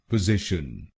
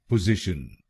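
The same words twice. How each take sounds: The two takes are said the same way.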